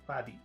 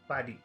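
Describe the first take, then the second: Both takes have the same delivery.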